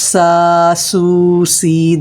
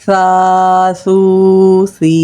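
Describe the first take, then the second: First: Each syllable starts with a sharp s sound. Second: Each syllable starts with a soft, lisped sound. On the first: The speaker calls it wrong. "This would be wrong sound because you are pronouncing seen letter" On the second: The speaker calls it right. "This is soft sound sa letter"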